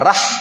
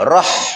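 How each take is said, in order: First: The r is said thin and light. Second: The r is said thick and heavy. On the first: The speaker calls it wrong. "Jangan rah" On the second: The speaker calls it right. "Ya, rah"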